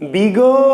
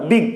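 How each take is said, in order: First: The syllable ends with an added vowel sound. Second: The syllable stops sharply on the consonant. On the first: The speaker calls it wrong. "বিগো না" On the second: The speaker calls it right. "আটকে যাচ্ছে, উচ্চারণটা আটকে যাচ্ছে"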